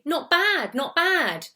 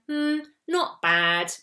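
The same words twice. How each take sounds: First: "Not bad, not bad" pitched high, pleasantly surprised; "Not bad", said twice, high and impressed; upbeat intonation. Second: Slow "Hmm, not bad", dropping on "bad"; drawn-out, doubtful "Hmm", then "not bad" going down; disappointed falling intonation. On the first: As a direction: lift your voice high on each "bad". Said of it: "My voice is going up". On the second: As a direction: let "not bad" sink, a bit disappointed. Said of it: "My voice is going down". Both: Shown as a demonstration.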